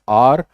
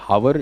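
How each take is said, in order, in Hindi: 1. शब्द स्वर की ध्वनि से शुरू होता है। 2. शब्द h की ध्वनि से शुरू होता है। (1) "it's आर" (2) "it is not हावर"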